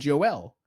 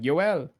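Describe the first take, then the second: First: The name is said with an English accent. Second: The name is said with a Spanish accent. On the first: This is how a non-Spanish speaker says it. "because I I don't have a Spanish accent" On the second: This is how the Spanish-speaking family says it. "everybody else calls him because they're all Spanish, they go like Joel"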